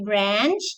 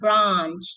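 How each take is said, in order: First: It is said in an American accent. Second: It is said in a British accent. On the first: "If you're pronouncing it in American English, you say branch" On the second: "If you're doing British, you say branch"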